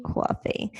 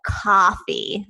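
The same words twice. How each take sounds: First: "Coffee" as a soft "CWAW-fee"; New York pronunciation. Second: "Coffee" with an open "ah": KAH-fee; forced standard pronunciation. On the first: Shown as a demonstration. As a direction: round the first vowel of "Coffee" into "waw". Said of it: "saying coffee". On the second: Retold or imitated. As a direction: carefully force out "Coffee" as "cahffee". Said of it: "force myself to try to get out".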